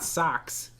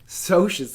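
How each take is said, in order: First: It sounds like the word 'socks'. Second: It begins with a 'sosh' sound. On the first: The speaker calls it wrong. "not Socks, if you pronounce it that way" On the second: The speaker calls it right. "like socialite"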